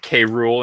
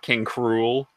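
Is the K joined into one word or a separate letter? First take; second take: separate; joined. First: The K is said as a separate letter. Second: The K is joined into one word. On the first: "you pronounce it K. Rool" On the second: "and not King Cruel"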